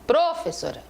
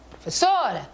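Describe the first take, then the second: First: The stress falls away from the syllable 'so'. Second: The stress falls on the syllable 'so'. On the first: The speaker calls it wrong. "eu não vou falar professora" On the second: The speaker calls it right. "a tônica é o O, é o so"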